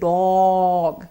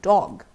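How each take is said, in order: First: The vowel is drawn out long. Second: The vowel is kept short. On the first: The speaker calls it wrong. "You don't say dog" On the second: The speaker calls it right. "It's a short sound"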